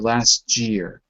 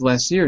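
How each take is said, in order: First: The word 'year' begins with a j sound. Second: The word 'year' begins with a y sound. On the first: The speaker calls it wrong. "you'll say last year" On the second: The speaker calls it right. "it's the y sound"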